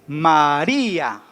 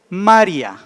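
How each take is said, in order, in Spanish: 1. Se pronuncia en tres sílabas: ma-ri-a. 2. Se pronuncia en dos sílabas: ma-ria. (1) "La palabra tendría tres sílabas" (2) "que no le pusiéramos acento, ¿cómo diría? ... Sería ma y luego ria"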